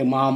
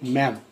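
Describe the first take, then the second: First: The vowel is long, as in 'father'. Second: The vowel is short, as in 'cat'. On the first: The speaker calls it wrong. "ज्याला कळत नाही तर काय म्हणते माम म्हणते" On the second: The speaker calls it right. "मॅडम नाही मॅम"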